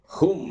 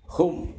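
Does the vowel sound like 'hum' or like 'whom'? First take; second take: hum; hum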